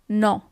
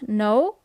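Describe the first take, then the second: First: It is pronounced the Italian way. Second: It is pronounced the English way. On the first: The speaker calls it right. "but it's no" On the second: The speaker calls it wrong. "you actually write it as in English, but the pronunciation is a little bit different. It's not no"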